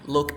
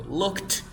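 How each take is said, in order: First: "looked" with an unreleased, D-like ending; soft D ending. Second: "Looked" rising, with a hard released T; final T in looked. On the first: Teacher proving they sound distinct, "looked" with soft D. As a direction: let "looked" stop without a T burst. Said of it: "y con la D sería". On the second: Teacher proving they sound distinct, "Looked" with strong T. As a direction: hit the T at the end of "Looked". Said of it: "voy a pronunciar con la T y con la D". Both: Shown as a demonstration.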